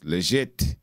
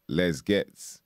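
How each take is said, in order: First: The name is said in the French way. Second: The name is read as English spelling suggests. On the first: The speaker calls it right. "but it's Legette" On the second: The speaker calls it wrong. "It looks like Les Gets"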